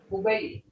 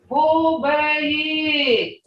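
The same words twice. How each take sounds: First: The word is said with its plain tone. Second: The word is said with a changed tone. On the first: The place is only a short way off. "not that far" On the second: The place is very far away. "See how tone changes that?"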